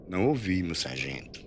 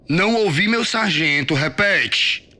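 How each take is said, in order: First: Cowed recruit's quiet reply; meek repetition. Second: High, loud sergeant dictating a reply; angry military shout; shouted drill command. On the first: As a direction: repeat it obediently, small and subdued. Recruit repeats it meekly. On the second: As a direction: bellow it for him to repeat. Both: A narrator's reading.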